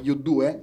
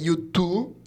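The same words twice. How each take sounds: First: The name is said with Italian sounds. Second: The name is said with English sounds. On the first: "come diciamo qua in Italia" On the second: "Tu sai sempre la pronuncia irlandese"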